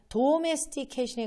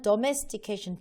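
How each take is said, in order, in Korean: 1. 첫 모음은 완전한 'oh' 소리예요. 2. 첫 모음은 약한 'uh' 소리예요. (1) "도가 아니고요" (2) "더가 더 맞거든요"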